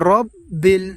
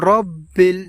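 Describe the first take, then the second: First: The first vowel is rounded, like 'o'. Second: The first vowel is rounded, like 'o'.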